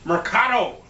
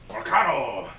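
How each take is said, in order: First: Mercado said as an English mer-KAH-doe, a bit higher; word of the day. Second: Mercado said lower in a different voice, Spanish style with a rolled r; Spanish pronunciation. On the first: Presenting the Mexican word of the day, Mercado said higher. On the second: Showing off the Mexican word of the day in Spanish style. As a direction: say Mercado again the Spanish way, deeper. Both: Shown as a demonstration. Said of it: "That's the Mexican word of the day".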